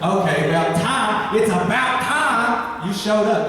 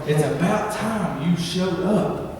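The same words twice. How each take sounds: First: A hint of an impatient sister drawing out the words; Martha fed up. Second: Said in the usual way. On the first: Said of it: "I just imagine Martha going". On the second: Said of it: "That's where I got the time".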